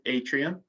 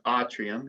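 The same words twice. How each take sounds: First: It is pronounced like the English word. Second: It is pronounced the classical Latin way. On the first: "atrium means atrium" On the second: "if we're pronouncing it correctly"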